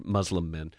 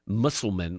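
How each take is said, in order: First: "Muslim men" said as "MUZ-lum men", with a z sound; modern pronunciation. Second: "Muslim men" said as "MUSS-ul-men", with an s sound; old-style pronunciation. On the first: Host glossing the treaty's word, "Muslim men" said "MUZ-lum men". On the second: Host reading the old treaty, "Muslim men" said "MUSS-ul-men". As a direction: pronounce "Muslim men" like the archaic "Mussulmen". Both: Shown as a demonstration. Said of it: "or Muslim men".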